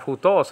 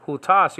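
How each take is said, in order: First: "hutos" with a rounded "o" in the last syllable; adverb-sounding ending. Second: "hutas" with an open "a" in the last syllable; demonstrative pronoun ending. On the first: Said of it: "that sounds like an adverb". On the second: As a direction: say "hutas" slowly, ending in "tas". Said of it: "instead of". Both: Shown as a demonstration.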